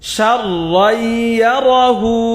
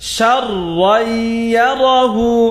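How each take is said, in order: Both takes have the same delivery.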